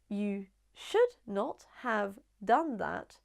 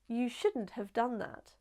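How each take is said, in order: First: Should and not are said as two full words. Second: Should and not merge into one contracted word.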